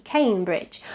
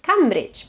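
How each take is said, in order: First: "Cambridge" as "Came-bridge"; English "Cambridge" with the vowel of day; long A vowel. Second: "Cambridge" with a short a, "Cam-bridge"; learner's "Cambridge" rhyming first syllable with ham; mispronounced vowel. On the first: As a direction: begin "Cambridge" with "kay". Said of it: "but it's K". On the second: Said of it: "tends to be pronounced Cambridge". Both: Shown as a demonstration.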